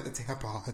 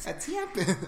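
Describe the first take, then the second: First: Said in the usual way. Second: TAMPON in a higher-pitched Wisconsin accent. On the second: Shown as a demonstration. Repeating it for a baffled friend, Wisconsin accent. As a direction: say TAMPON with a Wisconsin first vowel. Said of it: "this Wisconsin family".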